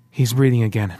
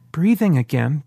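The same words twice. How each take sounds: First: Said in the usual way. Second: Rising, puzzled echo; puzzled question. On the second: A narrator's reading. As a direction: echo the words in confusion. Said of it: "David asked, puzzled".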